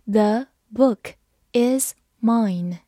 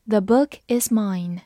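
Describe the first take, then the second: First: Slow reading. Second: Said in the usual way. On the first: Shown as a demonstration. Teacher reading slowly for students. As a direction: split into two slow chunks. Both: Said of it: "好，慢慢来读。".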